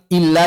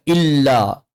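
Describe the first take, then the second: First: "illa" with a thin, light l; correct illa. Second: "illa" with a thick, dark l; wrong illa. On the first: Teacher modelling for careful readers, thin-l "illa". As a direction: say "illa" lightly, tongue not hollowed. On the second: Teacher showing the error to avoid, thick-l "illa". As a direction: say "illa" with a heavy hollow-tongued l. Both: Shown as a demonstration. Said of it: "jangan dibaca illa".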